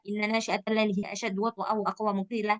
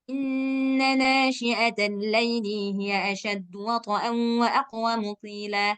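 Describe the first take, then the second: First: Fast, with the nasal sounds dropped entirely. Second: Fast, but the nasal sounds are still held. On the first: The speaker calls it wrong. "udah nggak dengung lagi ... bukan gitu" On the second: The speaker calls it right. "Tapi tetap hitungannya tetap, gunnahnya tetap"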